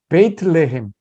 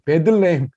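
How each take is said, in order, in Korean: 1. 첫 음절에 'bay' 같은 글라이드가 있어요. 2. 첫 음절은 짧고 평범한 'beh'예요. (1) "사실은 베이틀레헴" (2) "잘못된 발음인데"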